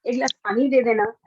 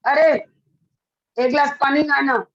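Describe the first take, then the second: First: Polite request. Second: Curt, commanding request for water; bossy order. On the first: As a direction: ask kindly, gently. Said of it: "line वही थी, पूरा लहजा change हुआ". (विनम्र, नरम लहजे में गुज़ारिश) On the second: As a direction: order it like talking down to a servant. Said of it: "उसको अच्छा नहीं लगेगा". (रूखा हुक्म देता लहजा) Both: Shown as a demonstration.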